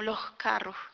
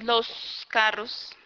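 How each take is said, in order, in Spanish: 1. La s es aspirada, como una h suave. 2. La s es larga y sisea de forma nítida. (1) "En la región atlántica suele aspirarse la S" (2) "una S más alargada, nítida, como al interior diríamos"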